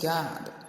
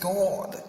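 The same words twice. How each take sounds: First: The vowel is open, close to 'ah'. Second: The vowel is rounded, close to 'or'. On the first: "you hear them say praise God" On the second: "instead of Americans saying praise God"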